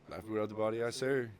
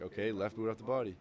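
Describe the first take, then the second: First: Loud, higher echo of the order; mock platoon yelling reply; recruits shouting back. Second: Barked command, a bit higher and louder; mock drill instructor command; drill instructor order. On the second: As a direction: call it out like a DI to recruits.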